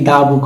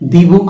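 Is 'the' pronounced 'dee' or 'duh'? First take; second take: duh; dee. First: 'The' is said with a short 'uh' vowel. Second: 'The' is said with a long 'ee' vowel. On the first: The speaker calls it right. "হবে দা বুক" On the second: The speaker calls it wrong. "দি বুক হবে নাকি দা বুক হবে"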